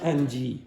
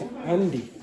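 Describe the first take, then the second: First: The final vowel is exaggerated and drawn out. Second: The final vowel is light and unexaggerated. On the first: The speaker calls it wrong. "It's not Angie" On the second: The speaker calls it right. "it's Andy"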